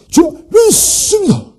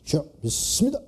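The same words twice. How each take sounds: First: It is said loudly and fervently. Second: It is said calmly and plainly.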